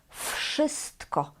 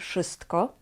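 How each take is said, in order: First: The first sound is a voiceless f. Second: The first sound is a voiced v. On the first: The speaker calls it right. "tutaj wymawiamy w jak f" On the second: The speaker calls it wrong. "Nie mówimy w wszystko, nie"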